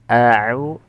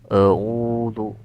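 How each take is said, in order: First: The opening hamzah sounds light and thin. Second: The opening hamzah sounds heavy and thick. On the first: The speaker calls it right. "dibaca tipis" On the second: The speaker calls it wrong. "Jadi tidak e a'udzu"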